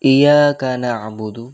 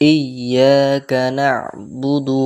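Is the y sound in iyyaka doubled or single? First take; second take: single; doubled. First: The y sound is short, not doubled. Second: The y sound is doubled for a normal length. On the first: The speaker calls it wrong. "অনেকজন ইয়ায়ে তাসদীদ ইয়া যুক্ত করে না" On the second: The speaker calls it right. "Normal যুক্ত করতে হবে"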